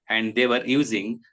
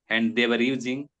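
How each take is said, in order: Both takes have the same delivery.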